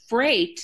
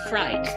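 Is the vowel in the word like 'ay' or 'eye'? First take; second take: ay; eye. First: The vowel is the standard 'ay' sound. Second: The vowel is an 'eye' sound, like fright. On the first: "Freight actually becomes the word fright" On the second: "becomes the word fright"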